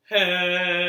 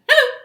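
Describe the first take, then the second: First: Hello is said very slowly. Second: Hello is said very fast.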